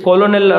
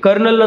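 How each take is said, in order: First: The word is said with three syllables, 'ko-lo-nel'. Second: The word is said with two syllables, 'ker-nel'. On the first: "correct pronunciation" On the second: "ನಾವ್ ಹೆಂಗ್ ಕರಿತೀವಿ"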